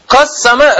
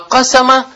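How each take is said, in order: First: The middle s sound is doubled and held. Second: The middle s sound is short and single. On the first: It means divided. "с чего ты взял, что он таждид там есть? ... «Кассама» разделил" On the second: It means made widely known. "«кассама» – «ашхара»"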